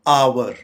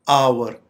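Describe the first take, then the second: No difference in how they are said.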